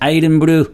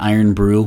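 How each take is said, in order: First: The name is said in a Scottish-style accent. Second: The name is said in a plain American accent. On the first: The speaker calls it right. "You have to say Iden Brew" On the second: The speaker calls it wrong. "you can't say it like that"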